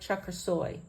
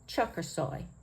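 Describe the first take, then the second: First: The last syllable carries the main stress. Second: The last syllable carries no extra stress.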